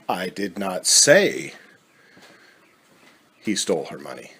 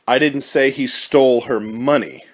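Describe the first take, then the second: First: The word I is stressed. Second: The word money is stressed. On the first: Someone else said it. "Implies that it was said, but not by you" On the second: Something other than the money was taken. "Implies that something was stolen, but perhaps it was not the money"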